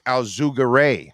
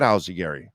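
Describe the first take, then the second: First: Alzugare slowly as al-zoo-ga-RAY; original pronunciation. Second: Alzagari said like Al-zuh-GARY; Americanized pronunciation. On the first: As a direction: stretch Alzugare out, ending on RAY. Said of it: "It's Alzugare". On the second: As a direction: end Alzagari like the name Gary. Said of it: "It's really not Alzagari". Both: Shown as a demonstration.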